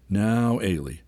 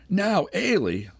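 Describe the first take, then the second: First: Said in the usual way. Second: High, slow indignant echo of "Now, Ailey?"; indignant cry. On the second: A narrator's reading. Ailey flinging Andy's words back at him, high indignant cry. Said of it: "she cried".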